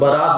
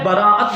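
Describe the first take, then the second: First: It has two syllables with a long first vowel. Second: It has three syllables with a break before the end. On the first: It names a wedding procession. The speaker calls it wrong. "कुछ लोग बारात बोल देते हैं" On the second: It means being freed or acquitted. The speaker calls it right. "तो लफ्ज़ क्या है? बराअत"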